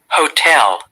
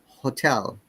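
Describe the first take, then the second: First: The first vowel is a full O sound. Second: The first vowel is reduced to schwa. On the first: "in American accent" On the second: "but we say hotel"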